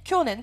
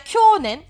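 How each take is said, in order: First: The vowel after 'ky' is kept short. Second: The vowel after 'ky' is held long. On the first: The speaker calls it right. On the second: The speaker calls it wrong.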